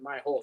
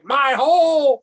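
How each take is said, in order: First: It is said quietly and plainly. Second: It is said loudly and forcefully.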